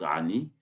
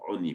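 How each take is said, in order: First: The word starts with an 'a' vowel. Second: The word starts with an 'o' vowel. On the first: This is the word as it is written. "c'est marqué sans vav, c'est marqué Aïn Nun Yud, donc Ani" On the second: This is the word as it is read aloud. "on le prononce comme si il y avait un vav"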